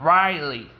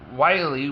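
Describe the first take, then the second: First: The name begins with an R sound. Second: The name begins with a W sound. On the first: The speaker calls it right. "Ri- Riley, like that" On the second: The speaker calls it wrong. "I pronounce it without an R"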